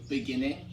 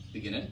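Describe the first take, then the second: First: Said in the usual way. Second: "beginning" shortened, middle swallowed; middle squeezed out. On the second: Shown as a demonstration. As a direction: squeeze "beginning" together, dropping part of the middle. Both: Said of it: "taking out some of the middle parts".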